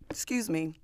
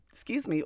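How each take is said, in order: First: Apologizing through a burp. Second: Second burpy excuse me; higher apologetic excuse me; burping. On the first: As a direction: excuse me after a burp. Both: Real, not acted. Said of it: "all of that burping".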